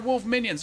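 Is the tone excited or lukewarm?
excited. It is said with amazed excitement.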